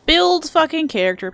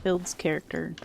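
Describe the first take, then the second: First: Higher, louder swearing emphasis; emphatic exclamation. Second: Said in the usual way. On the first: Real, not acted. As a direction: punch it out with a curse. Repeats phrase with emphasis.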